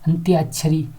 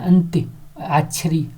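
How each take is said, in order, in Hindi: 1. शब्द एक सहज इकाई के रूप में बोला जाता है। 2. शब्द दो हिस्सों में बँटा है। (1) "एक साथ भी बोल सकते हैं" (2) "हम संधि में तोड़ रहे हैं, अंत्य अलग"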